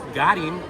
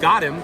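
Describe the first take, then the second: First: One vowel is bent into a slangy sound. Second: It has its ordinary, standard vowels. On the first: "I bent one vowel and I said got him" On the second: "I took got him"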